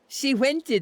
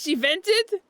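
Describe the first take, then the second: First: The verb starts with a w sound instead. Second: The verb starts with a normal v sound.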